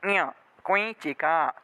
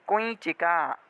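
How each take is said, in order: First: कुंचिका with the palatal nasal ञ clearly sounded; careful pronunciation. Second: कुंचिका said wrongly, without the nasal; mispronounced. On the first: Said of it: "देखो उच्चारण करेंगे". (सही उच्चारण कुंचिका) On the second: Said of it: "कुंचिका नहीं". (गलत उच्चारण कुंचिका) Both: Shown as a demonstration.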